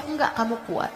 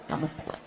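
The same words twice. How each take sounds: First: Said in the usual way. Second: Soft unvoiced whisper of kamu kuat; whispered echo. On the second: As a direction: breathe the words as a whispered echo. (bisikan lembut)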